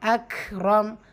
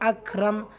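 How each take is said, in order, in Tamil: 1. k கேட்கக்கூடிய மூச்சுக் காற்றுடன் வெளிவிடப்படுகிறது. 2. k சாதாரணமாக, மூச்சுக் காற்று வெளியேறாமல் சொல்லப்படுகிறது. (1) "ஹம்சுடைய சட்டம் காற்றை வெளிப்படுத்தி ஓதணும்" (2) "சாதாரணமாக"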